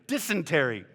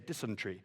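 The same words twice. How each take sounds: First: The word has an American pronunciation. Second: The word has a British pronunciation. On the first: The speaker calls it right. "We're in America" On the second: The speaker calls it wrong. "In England, we used to say dysentery"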